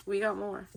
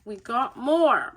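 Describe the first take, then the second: First: Said in the usual way. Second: Slow down and lean hard on "more"; emphatic MORE. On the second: Real, not acted. Reader announces more cards to viewers, stretching "more" emphatically.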